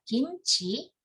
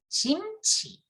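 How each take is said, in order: First: Said in the usual way. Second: "jimchi" with a j sound in place of the k; Busan-style "jimchi", initial g turned to j; Busan pronunciation. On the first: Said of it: "instead of pronouncing g". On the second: Shown as a demonstration. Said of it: "it's common to just pronounce ju".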